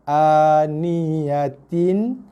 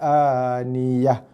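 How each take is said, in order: First: The word ends with a t sound and -in. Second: The word ends with a silent-vowel h sound. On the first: The reading continues without stopping. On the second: The reader stops at this word.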